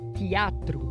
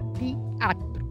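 First: It begins with a gliding 'tia' sound. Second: The same.

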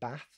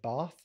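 First: The A vowel is said as a hard A. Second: The A vowel is said as a soft A. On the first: "hard A's" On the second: "soft A's"

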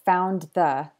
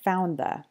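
First: The D at the end of 'found' is pronounced. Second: The D at the end of 'found' is dropped. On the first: "Why is it that found the can sound like" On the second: "he didn't pronounce the D at the end of found"

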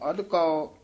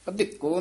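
First: The word ends with a drawn-out 'ao' sound. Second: The word ends with a plain 'o' sound. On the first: The speaker calls it right. "ਅਧਕਾਓ ਅਧਿਕੋ ਨਹੀਂ ਕਹਿ ਜਾਣਾ" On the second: The speaker calls it wrong. "ਅਧਿਕੋ ਨਹੀਂ ਕਹਿ ਜਾਣਾ"

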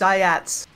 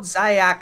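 First: The name ends with a ts sound. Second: The name ends with a k sound. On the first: The speaker calls it right. "it's Zayats" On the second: The speaker calls it wrong. "it's not Zayak"

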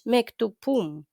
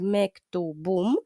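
First: The middle consonant is a voiceless p sound. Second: The middle consonant is a voiced b sound. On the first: The speaker calls it wrong. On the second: The speaker calls it right.

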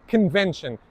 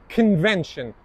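Both takes have the same delivery.

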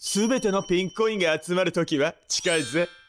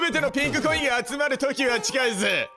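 First: It is read in a dramatic voice-actor style. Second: It is read in the speaker's ordinary voice.

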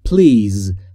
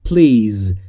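No difference in how they are said.

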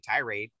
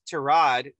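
First: The word is pronounced the English way. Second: The word is pronounced the French way. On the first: The speaker personally says it this way. "but I say tirade" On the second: Someone else says it this way. "which is actually the correct French way of saying it"

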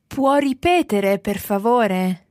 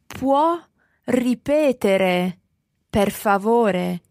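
First: It is said at normal speed. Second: It is said slowly.

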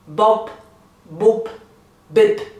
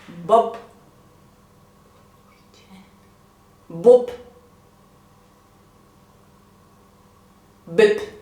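First: The syllables are said at a faster pace. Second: The syllables are said at a slower pace.

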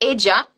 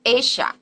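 First: The middle consonant sounds like English j. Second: The middle consonant sounds like English sh. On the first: This is how it is said in parts of Latin America. "they pronounce these two letters like j" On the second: This is how it is said in Argentina. "in Argentina it will be pronounced esha"

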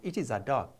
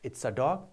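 First: Full form with it and is separate. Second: Contracted form with it and is joined. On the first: The speaker calls it wrong. "not it is a dog" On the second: The speaker calls it right. "you have to say it's a dog"

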